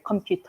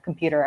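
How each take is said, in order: First: It is pronounced the Korean way. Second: It is pronounced the English way. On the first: "I would say computer" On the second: "rather than like computer"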